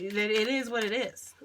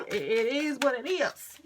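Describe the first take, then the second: First: Resigned mantra. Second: "it is what it is" slower and higher with a rising end; drawn-out mantra. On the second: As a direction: stretch "it is what it is" into a sing-song mantra. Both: Real, not acted. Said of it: "That just needs to be the fucking mantra".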